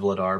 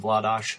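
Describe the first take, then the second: First: The name ends with an r sound. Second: The name ends with an sh sound. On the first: This is how people commonly say it. The speaker calls it wrong. "She's even said Vladar" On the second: This is the native Czech pronunciation. The speaker calls it right. "really the Czech pronunciation is Vladash"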